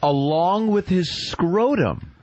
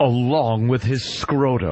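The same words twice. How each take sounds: First: It is said in a plain, neutral tone. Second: It is said in a darker, more ominous tone.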